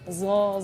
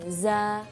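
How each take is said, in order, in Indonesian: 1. Suku katanya terdengar berat, dengan vokal yang mirip o. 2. Suku katanya terdengar ringan, dengan vokal a yang terbuka. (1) "jangan zo" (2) "lidah kita itu datar"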